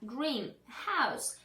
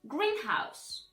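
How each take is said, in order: First: Both parts of the word are stressed equally. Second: Only the first part of the word is stressed. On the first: A house painted green. "those are two words used together" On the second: A building for growing plants. "the first word correctly will be pronounced as greenhouse"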